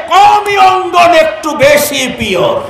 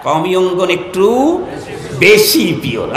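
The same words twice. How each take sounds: First: Punchline shout. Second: Said in the usual way. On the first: Real, not acted. Preacher praises Qawmi madrasas to the crowd, shouting. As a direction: belt out "একটু বেশি pure" as the triumphant line.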